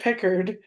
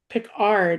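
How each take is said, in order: First: The last syllable sounds like 'erd'. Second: The last syllable sounds like 'ard'. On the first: The speaker calls it wrong. "I said Pickard" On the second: The speaker calls it right. "He said there is no erd. It's ard"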